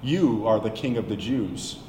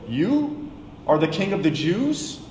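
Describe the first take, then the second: First: "You are the king of the Jews" said as a flat statement, falling at the end. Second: "You are the king of the Jews?" rising at the end in disbelief; disbelieving question. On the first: Shown as a demonstration. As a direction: state it as fact, no question in the voice. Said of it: "more accurately translates to". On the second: Acted. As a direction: ask it as an incredulous question. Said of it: "says to him in disbelief".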